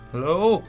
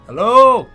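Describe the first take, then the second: First: It is said quietly and nervously. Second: It is said loudly.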